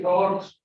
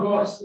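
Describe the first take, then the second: First: 'rods' ending in a voiced J-like Z; correct final sound. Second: 'rods' ending in a plain S; wrong final S. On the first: Teacher correcting the word, voiced ending. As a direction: end 'rods' with a buzz. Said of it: "that is rods". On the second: Teacher showing what to avoid, final S. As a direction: end 'rods' on an unbuzzed S. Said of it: "that is not rods". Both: Shown as a demonstration.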